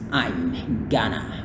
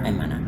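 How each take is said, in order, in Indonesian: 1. Bunyi g dalam gonna terdengar. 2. Bunyi g dalam gonna dihilangkan. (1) "it can be pronounced as usual" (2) "the G sound in Ghana can be left out"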